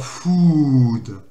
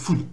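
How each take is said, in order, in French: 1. La voyelle est longue. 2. La voyelle reste brève. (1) "on ne dit pas food. Enfin là j'exagère un petit peu" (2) "Mais c'est food. Hop, là c'est euh, c'est une syllabe brève"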